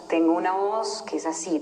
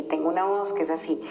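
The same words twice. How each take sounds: First: Said in the usual way. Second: Scared, breathless whisper; fearful whisper. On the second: Shown as a demonstration. Showing the group how a fearful inner voice sounds, in a whisper. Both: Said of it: "que realmente es súper miedosa".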